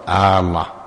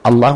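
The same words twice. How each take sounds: First: The opening vowel is drawn out. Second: The opening vowel is short. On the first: It turns the phrase into a question. The speaker calls it wrong. "ولا تقول الله" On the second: It is a plain statement of God's name. The speaker calls it right. "فتقول الله"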